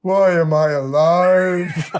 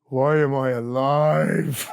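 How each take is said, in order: First: Louder, very slow, stretched-out wail; hammed-up existential moan, drawn way out; mock-tragic [name], loud and slow; [name]'s anguished cry. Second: Slow, drawn-out mumble, a lightly voiced [name]; a hint of [name], slow and world-weary; [name]'s weary voice. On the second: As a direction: drag each word out like a tired rocker. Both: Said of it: "He goes".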